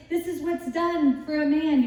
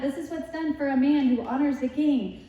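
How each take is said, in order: First: Higher, calling out the proclamation; a light mock herald's cry; proclaiming herald. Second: Fuller herald voice, raised and ringing; a herald in front of the horse proclaiming; herald's cry. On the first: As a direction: announce it like a herald in the street. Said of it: "you should make everybody say". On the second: Retold or imitated. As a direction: call it out ahead of the parade. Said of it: "You should have someone going in front".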